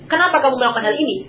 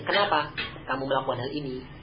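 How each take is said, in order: First: The question sounds rebuking and accusing. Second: The question sounds genuinely curious and neutral. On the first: The speaker disapproves of what was done. "Ini kan pertanyaan yang sifatnya itu mengingkari" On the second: The speaker truly wants to know the reason. "Tapi beda dengan nadanya"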